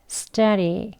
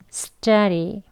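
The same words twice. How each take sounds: No difference in how they are said.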